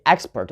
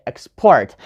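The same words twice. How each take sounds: First: Export as EX-port, port weak; wrong first-syllable stress. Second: Export as ex-PORT, PORT strong; stress on second syllable. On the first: Teacher showing what we don't say, export stressed on EX. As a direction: put the weight on EX in export. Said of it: "We don't say export". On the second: Teacher showing what we say, export stressed on PORT. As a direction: put the weight on PORT in export. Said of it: "we say export". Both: Shown as a demonstration.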